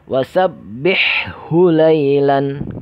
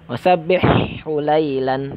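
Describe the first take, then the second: First: The h sounds are kept clearly distinct. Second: The h sounds are blurred together. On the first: The speaker calls it right. "Seharusnya harus jelas itu" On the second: The speaker calls it wrong. "Tidak jelas"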